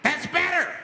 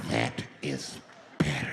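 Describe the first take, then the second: First: High, loud crazed approval; flipped-out man. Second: Very low, drawn-out approval; menacing calm. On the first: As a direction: bark it high at the hostages. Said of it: "Now the guy flips out". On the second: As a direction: drop it right down, word by word. Same man settles as crowd quiets. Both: Retold or imitated.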